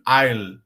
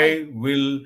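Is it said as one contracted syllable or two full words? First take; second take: contracted; full. First: It is said as one contracted syllable. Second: It is said as two full separate words. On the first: "you have to focus on that contraction" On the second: "become that"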